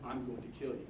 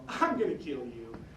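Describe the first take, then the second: First: It is said in a serious, threatening tone. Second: It is said in a light, joking tone. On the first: The threat is meant seriously. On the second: The threat is not meant seriously.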